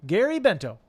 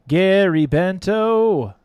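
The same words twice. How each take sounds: First: Said in the usual way. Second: Drawn-out loud call. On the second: Real, not acted. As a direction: call the name out slow and loud. Calling the winner's name again.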